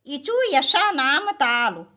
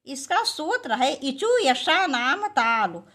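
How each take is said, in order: First: इचु यशा नाम ताल chanted slow and loud; sutra recited slowly and loudly. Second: Said in the usual way. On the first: Shown as a demonstration. Teacher to exam students, chants the sutra slow and loud. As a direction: recite the rule like a mantra.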